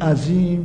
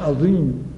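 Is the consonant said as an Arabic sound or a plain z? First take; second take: plain z; Arabic sound. First: The middle consonant is a plain z sound. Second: The middle consonant is a distinct Arabic sound. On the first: This is everyday Persian speech. "عزیز و عذاب و عظیم و فضل الله رو زه میگیم" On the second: This is Quranic recitation. "اما وقتی رسیدیم به قرآن"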